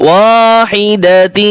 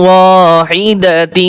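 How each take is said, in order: The two takes are said the same way.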